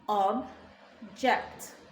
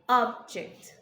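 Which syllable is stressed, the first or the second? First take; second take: second; first. First: The stress is on the second syllable. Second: The stress is on the first syllable. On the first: It is used as a verb. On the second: It is used as a noun.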